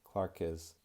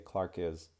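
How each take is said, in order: Both takes have the same delivery.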